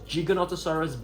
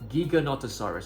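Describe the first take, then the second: First: The first part is not said like gigabyte. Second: The first part is said like gigabyte. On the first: The speaker calls it wrong. "It's not pronounced as Giganotosaurus" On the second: The speaker calls it right. "Giga as in gigabyte"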